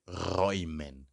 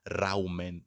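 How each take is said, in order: First: The first vowel sounds like 'oy'. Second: The first vowel sounds like 'ow'. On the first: The speaker calls it right. "Remember the pronunciation of e umlaut u. So I say räumen" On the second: The speaker calls it wrong. "Don't say raumen, no"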